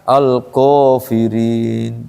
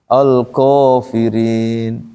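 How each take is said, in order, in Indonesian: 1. Huruf panjang setelah k terdengar tebal, seperti o. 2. Huruf panjang setelah k terdengar tebal, seperti o.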